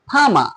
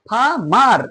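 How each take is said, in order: First: The word ends without an r sound. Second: The word ends with an audible r sound. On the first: "এখানে আমি উচ্চারণ করলাম কি ফামা" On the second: "লাস্টের আরটা তুমি উচ্চারণ করলেও করতে পারো"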